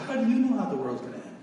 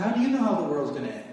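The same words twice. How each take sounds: First: Higher, raised challenging yell; yelling up at the killer in the next block; yelled question. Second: Said in the usual way. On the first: Retold or imitated. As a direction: shout the question across the cell block. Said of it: "And I yelled at him". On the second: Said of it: "And I said".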